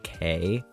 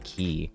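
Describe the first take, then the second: First: The word rhymes with day. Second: The word rhymes with see. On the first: It marks someone as a newcomer. The speaker calls it wrong. "You call it K?" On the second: It marks someone as an insider. The speaker calls it right. "so I pronounce it Castaway Key"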